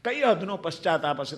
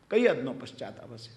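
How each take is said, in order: First: Said in the usual way. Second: કઈ હદનો પશ્ચાતાપ હશે said low and soft, in wonder; deep, hushed wonder at how deep the repentance went; hushed awe. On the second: Shown as a demonstration. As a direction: let the question sink in, hushed. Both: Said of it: "તમે વિચાર તો કરો".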